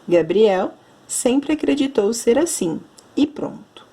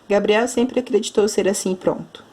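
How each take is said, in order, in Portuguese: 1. Há uma pausa clara depois de assim. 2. Continua sem pausa depois de assim. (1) "eu dei uma pausa, porque temos a vírgula" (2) "Eu não posso ler"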